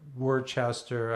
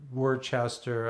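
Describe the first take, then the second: First: It is said as the spelling suggests. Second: The same.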